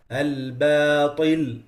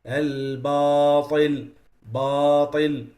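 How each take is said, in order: First: Slow Al-batil with a light ba and alif; correct Al-batil. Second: Slow Al-batil with heavy ba and alif; wrong heavy Al-batil. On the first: Teacher showing students the right Al-batil. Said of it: "that's the right pronunciation". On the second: Teacher showing students a wrong heavy Al-batil. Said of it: "they make them heavy". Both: Shown as a demonstration.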